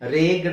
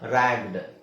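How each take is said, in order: First: The first vowel sounds like 'ay'. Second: The first vowel sounds like 'ah'. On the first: The speaker calls it wrong. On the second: The speaker calls it right.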